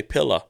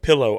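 First: PILLOW as pill-uh; pillow ending in uh. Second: PILLOW ending in a clear oh; "pillow" with round final vowel; pillow with full OW. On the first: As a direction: reduce the end of "pillow" to uh. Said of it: "I say pillow". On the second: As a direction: say "pillow" as pill-oh. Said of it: "the O W is, instead of". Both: Shown as a demonstration.

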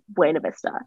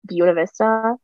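First: "Buena" said BWAY-nuh; Spanish-style pronunciation. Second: "Buena" said BYOO-nuh; local Americanized pronunciation. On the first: Shown as a demonstration. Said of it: "But you know it's Buena". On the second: Retold or imitated. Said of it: "everyone calls it Buena".

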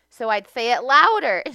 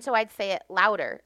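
First: Much louder, higher retelling; mock raised voice. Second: Said in the usual way. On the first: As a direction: raise your voice to act out escalating frustration.

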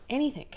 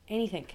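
First: High, loud exasperated repeat; emphatic shout. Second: Said in the usual way. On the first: Real, not acted. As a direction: throw the word Anything up high and loud. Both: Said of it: "repeated for emphasis".

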